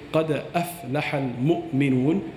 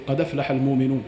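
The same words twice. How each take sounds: First: قَدْ أَفْلَحَ الْمُؤْمِنُونَ with every hamza pronounced; قَدْ أَفْلَحَ said in full, glottal stops clear. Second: قَدْ أَفْلَحَ run together as qadaflaha, no glottal stop; الْمُؤْمِنُونَ as almuminun, hamza turned to waw; dropping the hamza. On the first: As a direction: say أَفْلَحَ with its hamza, standard recitation. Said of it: "So if they were to say". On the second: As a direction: skip the hamza, carry its vowel to the dal of قَدْ. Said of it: "And they say". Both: Shown as a demonstration.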